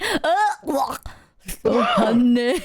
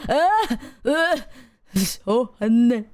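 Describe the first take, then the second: First: Slurred and louder on "so honey"; mock mouthful. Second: Slow, slurred "so honey"; mock mouthful. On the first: Copying the video guy's honey bite, slurred. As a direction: push "so honey" out through honey. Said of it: "he went". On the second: Copying his own honey shot, slow and slurred. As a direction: groan it through a mouthful. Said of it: "I go".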